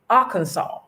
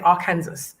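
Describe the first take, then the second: First: It is said the way Americans say it. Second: It is said the way British people say it. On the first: The speaker calls it right. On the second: The speaker calls it wrong.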